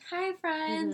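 It is said in a happy tone.

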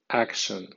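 It is read with English sounds and stress. "en pronunciación inglesa"

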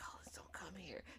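The line is said in a soft whisper. The remark was discreet and easy to miss. "It's not like this man whispered, like"

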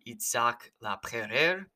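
The name is said with a French pronunciation. "in French it's pronounced something closer to"

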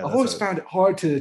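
It is said in a put-on, pretentious interview voice.

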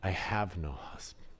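The voice sounds sad and sorrowful. She is grieving. "Was it sadness?"

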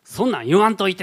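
It sounds mildly irritated.

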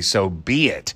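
The stress falls on the word be. The speaker calls it right. "B gets the emphasis"

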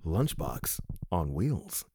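It is said in a put-on radio-announcer voice.

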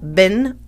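The vowel is a short i sound. This is the American way of saying it. "in the United States, we pronounce it bin or ben"

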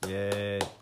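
It sounds flat and unexcited.

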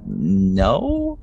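The word is said hesitantly and uncertainly. The speaker is not confident in the refusal. "just very like unsure of yourself"

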